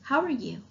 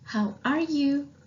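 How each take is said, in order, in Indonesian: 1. Frasa itu diucapkan dengan cepat, tersambung jadi satu. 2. Frasa itu diucapkan dengan lebih lambat dan hati-hati.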